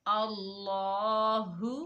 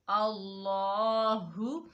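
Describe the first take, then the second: The two takes are said the same way.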